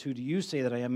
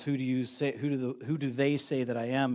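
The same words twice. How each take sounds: First: "you" leaned on in "Who do you say that I am?"; stress on you. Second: Said in the usual way. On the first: Retold or imitated. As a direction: land the weight on "you", turning the question on them. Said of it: "And then he says". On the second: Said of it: "And then he says, "Who do you say that I am?".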